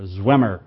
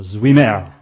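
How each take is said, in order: First: Zwemer said as "ZWEM-er"; likelier pronunciation. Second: Zwemer said as "zwee-MAIR"; alternative pronunciation. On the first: Preacher settling on a missionary's surname, likelier pronunciation "ZWEM-er" for Zwemer. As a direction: say Zwemer with a short "e", as in "hem", and a light "er". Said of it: "It's probably Samuel Zwemer". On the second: Preacher unsure of a missionary's surname, offering alternative pronunciation "zwee-mair" for Zwemer. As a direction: say Zwemer with a long "ee" and an open "air" ending. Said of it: "or Zwemer". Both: Shown as a demonstration.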